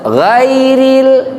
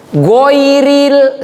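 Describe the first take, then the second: First: The first vowel is an open ai. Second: The first vowel is a rounded oi. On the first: The speaker calls it right. "harusnya gairil" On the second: The speaker calls it wrong. "salah itu"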